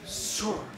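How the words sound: The name is said another country's way. "En otros países"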